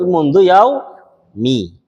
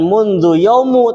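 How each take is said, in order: First: The second word ends with an 'i' vowel. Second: The second word ends with an 'u' vowel. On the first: The speaker calls it right. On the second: The speaker calls it wrong.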